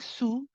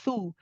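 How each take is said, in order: First: It begins with a hissing s sound. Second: It begins with a th sound, tongue out. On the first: The speaker calls it wrong. "You don't want to be saying su" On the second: The speaker calls it right. "It is thu"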